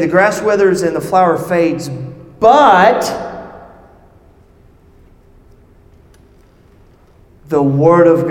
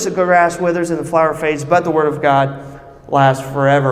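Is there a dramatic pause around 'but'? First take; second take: yes; no. First: There is a dramatic pause at 'but'. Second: It flows on without a pause at 'but'.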